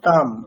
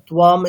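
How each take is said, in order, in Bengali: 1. শব্দটি সাধারণ 't' ধ্বনি দিয়ে শুরু। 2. শব্দটি 'tw' ধ্বনি দিয়ে শুরু। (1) "শুধুমাত্র তকার আছে" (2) "আপনার উচ্চারণটা সেই বকারই চলে আসছে একটা, তুয়াম এরকম কেন হবে?"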